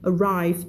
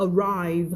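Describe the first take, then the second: No difference in how they are said.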